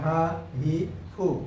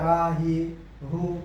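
First: The third syllable begins with an f-like sound. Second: The third syllable begins with a plain h sound. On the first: The speaker calls it right. "এটার উচ্চারণ হচ্ছে কি ফু" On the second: The speaker calls it wrong. "যদি কেউ বলে হা হি হু, তাহলে ভুল হবে"

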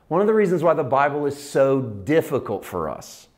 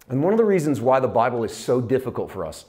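First: It is said slowly and deliberately. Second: It is said at a normal speed.

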